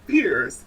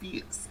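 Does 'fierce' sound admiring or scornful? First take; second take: admiring; scornful. First: It is said in an admiring, praising tone. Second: It is said in a scornful, shady tone. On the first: The person is being complimented. "as in you're slaying or turning the function" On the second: The person is being insulted. "that means you're shady"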